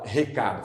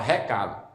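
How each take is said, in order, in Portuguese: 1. Ela é dita com sotaque não baiano. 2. Ela é dita com sotaque baiano. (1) "aqui na Bahia não fala" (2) "fala recado"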